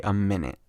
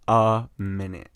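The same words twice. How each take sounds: First: Said in the usual way. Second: "a minute" slow, with a stretched, stressed "a"; emphatic "a minute". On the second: Shown as a demonstration. Storyteller stressing the long wait at Denny's, "a minute" drawn out on "a". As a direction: lean hard on the "a" in "a minute", slowly.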